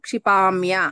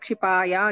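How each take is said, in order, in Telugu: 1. ఈ పదాన్ని m ధ్వనితో పలుకుతారు. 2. ఈ పదాన్ని m ధ్వని లేకుండా పలుకుతారు. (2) "ఎన్నిసార్లు చెప్పినా క్షిపాయ అంటున్నావు"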